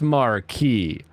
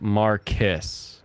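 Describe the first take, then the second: First: It is said with a French pronunciation. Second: It is said with a British pronunciation. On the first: The speaker calls it right. "I learned French. It's Marquis" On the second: The speaker calls it wrong. "they say Marquis"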